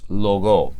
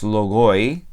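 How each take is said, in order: First: The word ends with a plain long o. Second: The word ends with an audible oi sound. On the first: The speaker calls it right. "Es logo" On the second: The speaker calls it wrong. "No es logoi"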